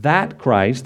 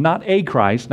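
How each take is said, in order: First: "that" drawn out and set apart before "Christ"; emphatic "that"; stress on THAT. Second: "a" said as a full "ay"; "a" set apart as a stressed "ay". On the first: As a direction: lean on "that" to mean the one and only. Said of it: "Not a Christ, not a Messiah". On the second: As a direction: lean on "a" to reject just any one. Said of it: "Notice, "That Christ". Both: Shown as a demonstration.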